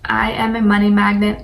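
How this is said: It is said with conviction and intention.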